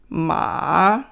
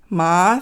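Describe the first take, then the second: First: The pitch dips low, then rises. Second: The pitch rises from mid to high. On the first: "two, one, four" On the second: "three, five"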